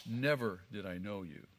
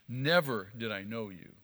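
First: "Never" weighted at the start, hushed and low; stress on Never. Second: "Never" hit firmly at the start, fuller voice; stress on Never. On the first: Preacher showing the Greek emphasis, "Never" stressed softly. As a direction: lean on "Never" quietly, the rest falling away. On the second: Preacher repeating Jesus' verdict, "Never" pressed hard. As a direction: punch "Never" as the key word, then fall. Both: Shown as a demonstration. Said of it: "the emphatic is in the first part of the sentence".

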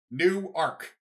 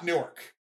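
First: "Newark" as two words, new-ARK, stress on ark; two-syllable Newark. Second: "Newark" said as NEW-erk; "Newark" with the stress up front and a reduced ending; run-together Newark. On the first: Correcting Liberty fans on the town name, "Newark" as new-ARK. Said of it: "it is pronounced Newark". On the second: Showing Liberty fans the wrong name, "Newark" as NOO-erk. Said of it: "not Newark". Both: Shown as a demonstration.

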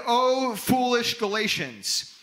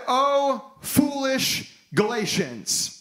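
First: Said in the usual way. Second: Slow, higher, stern rebuke; righteous anger. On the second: Acted. Paul rebuking the Galatians, slow righteous anger. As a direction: scold them like a disappointed apostle. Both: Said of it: "the righteous anger of the Apostle Paul".

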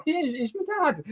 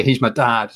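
First: Much higher, softer, coy "Yeah, he's my dad"; teasing fake admission. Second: Said in the usual way. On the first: Host winding up fans asking how Gio and Gonzo met, coy high teasing reply. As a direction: drop the joke like a sly confession. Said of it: "I'm always tempted to just be". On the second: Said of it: "I'm always tempted to say".

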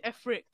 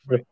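First: F-rick with the letter F said first, then "rick"; spelled-out F-rick. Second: Said in the usual way. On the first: Shown as a demonstration. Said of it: "I always say F-rick". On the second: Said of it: "I don't say frick".

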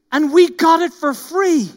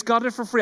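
First: High, loud petulant whine on and we got it for free; sulky whine rising on "we"; mock-grumbling crowd line; whiny complaint. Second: Quoting it back with "got" leaned on; preacher underlining "got it for free"; stress on GOT. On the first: Whining quote, then phrase repeated. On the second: Shown as a demonstration. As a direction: pick out "got" for the congregation. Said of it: "remember that phrase".

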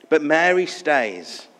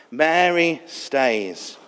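First: Said in the usual way. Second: Mary stays, very slow and drawn out; slow emphatic repeat. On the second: Real, not acted. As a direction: let each word of "Mary stays" linger.

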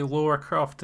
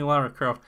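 First: Laura with a rounded "aw" vowel; pronounced Laura. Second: Lara with an open "ah" vowel; pronounced Lara. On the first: Retold or imitated. Speaker quotes how Yanks say the name, Laura said LAW-ra. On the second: Shown as a demonstration. Speaker confirms the game heroine's real name, Lara said LAH-ra. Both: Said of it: "a lot of Yanks say Laura Croft".

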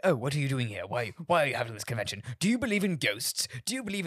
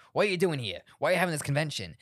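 First: Mock British reporter, quick and pitched up; British accent. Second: Said in the usual way. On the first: Podcaster imitating British press, mock British accent. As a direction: ask it like a nosy British journalist. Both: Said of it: "But, like, British people".

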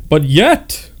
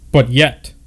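First: YET pushed louder with a lift at the end; emphatic retake. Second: Said in the usual way. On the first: Shown as a demonstration. Narrator rereading with more weight on "yet". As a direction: lean hard on "yet" and let it rise.

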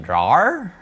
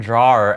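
First: "Drawer" pitched up as a question; puzzled echo. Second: Said in the usual way. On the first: Retold or imitated. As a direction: echo "Drawer" higher, querying the word. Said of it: "and then Ryan was like". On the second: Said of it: "I said drawer, and then Ryan was like".

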